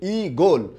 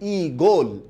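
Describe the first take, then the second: Both takes have the same delivery.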